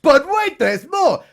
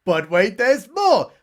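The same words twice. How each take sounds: First: "But wait" shouted much higher and louder; over-the-top "But wait, there's more" pitch; hammed-up infomercial. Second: Said in the usual way. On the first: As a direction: blast it like a TV salesman. Infomercial catchphrase, third time.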